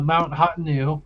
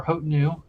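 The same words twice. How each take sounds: First: Hotenu said with "hot" as its first syllable; alternate pronunciation. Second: Hotenu said with "hote" as its first syllable; alternate pronunciation. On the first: Game master offering one version of the mountain's name, alternate pronunciation. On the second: Game master unsure of the mountain's name, alternate pronunciation. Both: Shown as a demonstration. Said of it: "we pronounce it differently".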